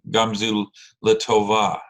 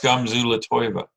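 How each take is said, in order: First: The last word has a plain 'o' vowel sound. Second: The last word has an 'oy' vowel sound. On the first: It follows the standard pronunciation. The speaker calls it right. "Tova is the correct way to say it" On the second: The speaker calls it wrong.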